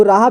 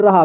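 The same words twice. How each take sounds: First: राहा with a long "aa" in the first syllable; long first vowel. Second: रहा with a short "a" in the first syllable; short first vowel. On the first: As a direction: stretch the first vowel of राहा, "raa-haa". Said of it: "राहा भी पढ़ सकते हैं". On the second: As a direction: keep रहा's first vowel short, "ra-haa". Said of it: "और रहा भी". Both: Shown as a demonstration.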